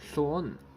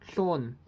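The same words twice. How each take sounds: First: The word is said without a high falling pitch. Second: The word is said with a high falling pitch. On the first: This is the urban dialect's tone one. "tone one, illustrated by Lon" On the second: This is the Ma'ai dialect's tone one. "in the Ma'ai dialect with a high falling pitch"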